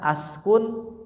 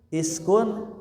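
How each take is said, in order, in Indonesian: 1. Kata ini diawali dengan vokal 'a'. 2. Kata ini diawali dengan vokal 'i'. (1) "jangan askun" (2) "jangan askun iskun"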